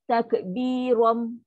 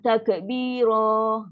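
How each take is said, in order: First: The word ends with closed lips on an m. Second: The final vowel is drawn out long. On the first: "tutup mulut" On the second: "Jangan takbiro. Ha, tarik panjang"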